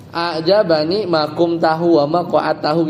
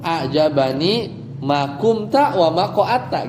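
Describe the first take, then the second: First: "ajabani ma kumtahu wa ma koattahu" with the -hu ending on both verbs; form Arabs never say. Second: "ajabani ma kumta wa ma koatta" read without the hu ending; Arabic as Arabs say it. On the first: (ucapkan "kumtahu" dan "koattahu" dengan akhiran -hu) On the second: (ucapkan "kumta" dan "koatta" tanpa akhiran -hu) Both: Shown as a demonstration.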